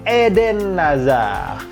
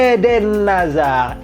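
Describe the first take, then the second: No difference in how they are said.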